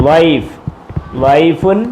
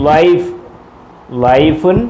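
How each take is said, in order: Both takes have the same delivery.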